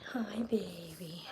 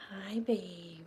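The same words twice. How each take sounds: First: Slow tender whisper; whispered coo. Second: Quiet, tender voiced greeting; soft coo. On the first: Whispering hello to her purring cat. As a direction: breathe it softly to the kitten. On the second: Softly greeting her purring cat. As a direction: murmur it gently to the pet. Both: Real, not acted.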